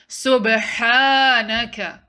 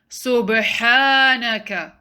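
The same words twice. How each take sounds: First: The ha syllable is held for two counts. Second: The ha syllable is held for two counts.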